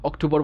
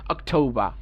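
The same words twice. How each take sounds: First: অক্টোবর with a full Bengali r at the end; Bengali-style October. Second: অক্টোবর ending in -ba, no r; English October. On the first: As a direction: say অক্টোবর the local way with the r. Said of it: "অক্টোবর বলবো না". (অক্টোবর বাংলা উচ্চারণে, শেষে র সহ) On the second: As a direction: drop the r in অক্টোবর. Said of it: "বলবো অক্টোবর". (অক্টোবর ইংরেজি উচ্চারণে, র ছাড়া) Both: Shown as a demonstration.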